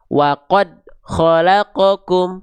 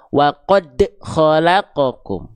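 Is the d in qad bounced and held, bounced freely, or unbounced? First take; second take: unbounced; bounced and held. First: The d in qad has no bounce. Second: The d in qad bounces but is held. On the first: "dia tidak dipantul, tidak dipantulkan" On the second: "pantulannya tertahan"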